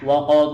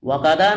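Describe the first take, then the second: First: The word is clipped, ending in a consonant. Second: The word has extra vowels, ending in a vowel. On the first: The speaker calls it right. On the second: The speaker calls it wrong. "ওয়াকাদা না"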